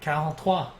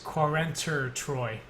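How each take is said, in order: First: It is pronounced the French way. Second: It is pronounced the English way. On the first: The speaker calls it right. "that's it's French" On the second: The speaker calls it wrong. "I kept pronouncing it as Quarenter Troy, even though I speak French"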